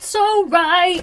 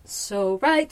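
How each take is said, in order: First: So right squeaked high and loud; high mock voice. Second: Said in the usual way.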